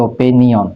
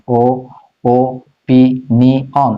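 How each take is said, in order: First: Said in the usual way. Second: "ও পি নি অন" broken into separate syllables with pauses. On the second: Shown as a demonstration. Teacher showing students how to spell opinion, "ও পি নি অন" syllable by syllable. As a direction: say "ও পি নি অন" one syllable at a time. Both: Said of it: "syllable করে ফেলো".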